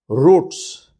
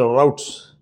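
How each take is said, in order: First: It is pronounced the British way, like 'roots'. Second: It is pronounced the American way, like 'rowts'.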